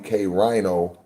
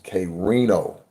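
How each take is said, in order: First: The vowel after R sounds like eye. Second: The vowel after R sounds like ee. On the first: The speaker calls it wrong. "they'll pronounce it K Rhino" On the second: The speaker calls it right. "the pronunciation of my name is K Reno"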